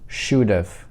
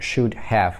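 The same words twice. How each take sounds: First: The second word is shortened into the first. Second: Both words are said fully and separately. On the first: This is the form for fluent speech. "это мы сокращаем для беглой речи" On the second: This is the written form. "это мы пишем"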